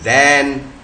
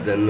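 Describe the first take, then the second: First: The word is said with a full vowel. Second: The word is said with a reduced schwa vowel. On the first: "T H A N दैन" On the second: "मगर यहां दन हो गया, अ आ गया, शो आ गया"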